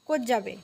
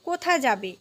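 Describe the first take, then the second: First: The first word loses its final vowel. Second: The first word is said in full.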